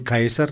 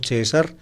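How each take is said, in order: First: The name is given its Latin pronunciation. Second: The name is given an Italian-style pronunciation. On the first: "en latín" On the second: "como la pronuncian a la italiana"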